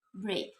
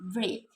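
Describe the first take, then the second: First: The vowel sounds like the 'a' sound. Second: The vowel sounds like the 'a' sound.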